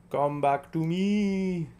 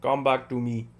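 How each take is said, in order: First: Slow, stretched out come back to me; drawn-out call. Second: Said in the usual way. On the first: Acted. Calling Cal back slowly, stretched out. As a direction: drag each word out like calling to a friend.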